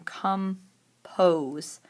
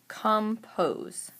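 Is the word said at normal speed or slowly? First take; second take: slowly; normal. First: The word is said slowly and drawn out. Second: The word is said at normal speed.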